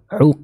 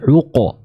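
First: The q ends clipped with no vowel echo. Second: The q ends with a short 'a' echo. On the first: The speaker calls it wrong. "bukan uq" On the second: The speaker calls it right. "tapi uqa"

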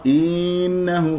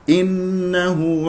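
First: The first vowel is stretched out long. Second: The first vowel is kept short. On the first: The speaker calls it wrong. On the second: The speaker calls it right.

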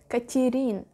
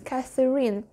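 First: The middle consonant is a plain t sound. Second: The middle consonant is a th sound. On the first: The speaker calls it wrong. "I want to say just Katerin" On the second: The speaker calls it right. "but this is Catherine"

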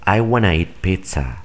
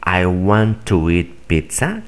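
First: 'Want to' is reduced, sounding like 'wanna'. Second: 'Want to' is pronounced as two full words. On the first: "los nativos solo dicen" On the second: "En lugar de decir"

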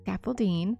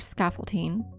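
First: The middle consonant sounds like a D. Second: The middle consonant sounds like a T. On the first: The speaker calls it right. "really it's with a D" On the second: The speaker calls it wrong. "I just said that with a T"

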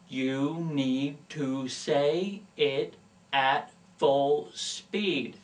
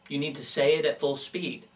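First: It is said slowly, enunciating every word. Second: It is said quickly, at natural speed.

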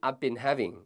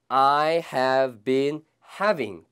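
First: I have is said quickly as one contracted syllable. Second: I have is said as two full words.

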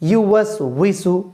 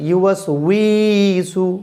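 First: The vowel in 'wi' is kept short. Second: The vowel in 'wi' is drawn out long. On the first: The speaker calls it right. "উই কিন্তু কোনো টান নাই" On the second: The speaker calls it wrong. "অনেকে বলে ইউওয়াস উইসু"

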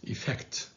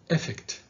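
First: The stress is on the second syllable. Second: The stress is on the first syllable. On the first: The speaker calls it right. "The stress is on the second syllable" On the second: The speaker calls it wrong. "don't say effect"

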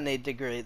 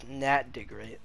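First: The first name has a long 'ay' vowel. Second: The first name has a short 'a' vowel. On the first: The speaker calls it wrong. "it's not Nate DeGreat" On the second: The speaker calls it right. "That's Nat DeGreat"

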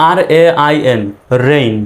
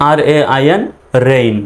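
The two takes are said the same way.

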